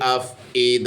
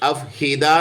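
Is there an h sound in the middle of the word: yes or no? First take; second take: no; yes. First: The middle has a glottal catch, no h sound. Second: The middle has a clear h sound. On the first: The speaker calls it right. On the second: The speaker calls it wrong.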